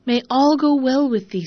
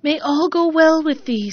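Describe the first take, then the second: First: Oven blessing. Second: Raised, louder kindly blessing; fence blessing. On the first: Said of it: "said the oven". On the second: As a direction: bless her as she goes. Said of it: "said the fence". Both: A narrator's reading.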